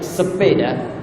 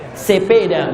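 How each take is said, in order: First: It is said in the standard way. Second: It is said with a Medan accent.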